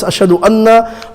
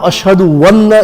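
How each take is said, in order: First: The second word starts with a plain vowel. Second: A 'w' sound is inserted before the second word. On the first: The speaker calls it right. "it's ashhadu anna" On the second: The speaker calls it wrong. "not a wow"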